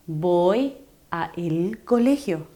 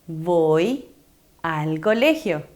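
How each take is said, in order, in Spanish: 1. Las palabras 'a' y 'el' se pronuncian por separado. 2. Las palabras 'a' y 'el' se unen en 'al'. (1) "¿Suena bien? No" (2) "la primera oración está correctamente pronunciada"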